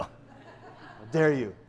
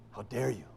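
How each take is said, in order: First: Slow, drawn-out mock Spanish accent; Inigo Montoya. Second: Low, hushed mock Spanish accent; soft, low Spanish-accented affront; Inigo Montoya. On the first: Pastor voicing Don Quixote's affront, hammy slow Spanish accent. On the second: Pastor voicing Don Quixote's affront, hushed mock Spanish accent. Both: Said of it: "He speaks like that, Inigo Montoya".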